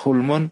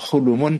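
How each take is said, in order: First: The l and m are joined with no vowel. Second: A short u vowel separates the l and m. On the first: "bisa dibaca hulmun atau hulumun" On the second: "bisa dibaca hulmun atau hulumun"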